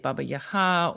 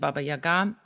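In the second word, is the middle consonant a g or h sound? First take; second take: h; g. First: The second word has a breathy h sound. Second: The second word has a hard g sound. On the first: This is the form used in Ukrainian. "in Ukrainian would say Baba Yaha" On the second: This is the form used in Russian and in America. "That pronunciation, Baba Yaga, is a Russian pronunciation"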